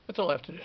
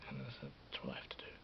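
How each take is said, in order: First: Much louder, firm; loud declaration. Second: Unvoiced whisper. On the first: Vlogger declaring his plan out loud after whispering it, loud. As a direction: say it out loud and proud. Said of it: "repeated aloud after whisper". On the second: Vlogger whispering his plan to himself, whispered. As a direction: whisper it to yourself. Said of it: "whispered then repeated aloud". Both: Shown as a demonstration.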